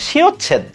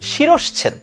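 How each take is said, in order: First: The middle has a plain 'ch' sound. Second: The middle has an 'sh' before 'ch'. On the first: The speaker calls it wrong. "পুরোটাই ভুল বলি" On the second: The speaker calls it right. "মূল শব্দটা হচ্ছে শিরশ্ছেদ"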